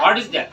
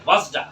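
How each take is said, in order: First: Said in the usual way. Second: "What's that" run together, final t dropped; fast English contraction. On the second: Shown as a demonstration. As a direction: blend "What's that" into "wassa". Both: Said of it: "কি বলবো?".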